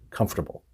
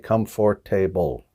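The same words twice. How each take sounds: First: One syllable is dropped, giving three. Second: All four syllables are pronounced. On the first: The speaker calls it right. "We say comfortable" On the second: The speaker calls it wrong. "We don't pronounce all the syllables in there. We don't say comfortable"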